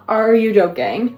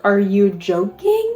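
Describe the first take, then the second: First: Excited disbelief. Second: Stretched-out, dragged disbelief; drawn out, can't believe it; slow disbelief. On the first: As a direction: push it up, thrilled disbelief. Repeats the question louder. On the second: Shows the cover in disbelief. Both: Real, not acted.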